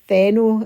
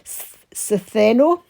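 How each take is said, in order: First: The name begins with a th sound. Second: The name begins with an S sound.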